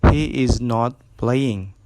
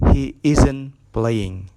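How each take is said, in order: First: 'Is not' is said as two full words. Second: 'Is not' is contracted into one syllable.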